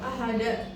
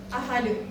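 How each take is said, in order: First: The word ends with a glottal stop. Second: The word ends on a bare d consonant. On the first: "seperti ada hamzah di akhir" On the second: "ada juga yang menjadi ahad"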